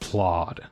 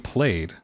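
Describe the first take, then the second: First: The vowel sounds like the one in 'odd'. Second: The vowel sounds like the one in 'day'. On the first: "I feel like I've heard it be pronounced plod" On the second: "I always thought that it was supposed to be played"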